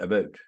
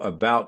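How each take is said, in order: First: The word is said in a Richmond accent. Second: The word is said in a general accent. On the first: "you went about" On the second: "You didn't go about somewhere"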